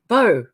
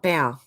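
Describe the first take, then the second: First: The word rhymes with 'go', as in arrow. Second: The word rhymes with 'now', as in bending. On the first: The speaker calls it right. "like in bow and arrow" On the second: The speaker calls it wrong. "not bow as in bow down"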